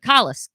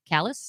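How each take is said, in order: First: "Callus" with an open ah first vowel; trying a pronunciation. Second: "Callus" with a flat a, as in cat; softer, questioning "Callus", first syllable like pal; questioning pronunciation. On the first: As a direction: say "Callus" as KAH-luss. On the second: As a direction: ask "Callus" as KAL-uss, rising. Trying out pronunciations of a name. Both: Shown as a demonstration.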